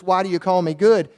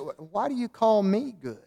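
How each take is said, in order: First: The stress falls on the word 'good'. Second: The stress falls on the word 'me'. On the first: "or just why do you call me good?" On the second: "you might emphasize that word me there a little bit. Say"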